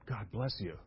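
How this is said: It is said slowly and with deep sincerity. Someone truly desires good for the other person. The speaker calls it right. "When we say it with meaning, when we say it to, like, with all my heart"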